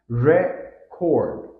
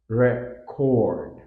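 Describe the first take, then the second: First: It carries the noun's stress pattern. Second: It carries the verb's stress pattern. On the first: It names a thing. "pronounced differently when used as a noun" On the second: It names an action. "versus a verb"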